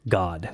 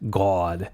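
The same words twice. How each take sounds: First: The vowel is a plain open 'ah' sound. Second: The vowel is a rounder 'aw' sound. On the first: "in sort of a basic American accent" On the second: "a lot more aw, aw sound"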